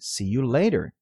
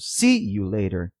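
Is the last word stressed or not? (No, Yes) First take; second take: Yes; No. First: The last word carries the main stress. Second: The last word does not carry the main stress. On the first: The speaker calls it right. "a ênfase correta fica nas palavras "day" e "later"" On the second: The speaker calls it wrong. "soará estranho"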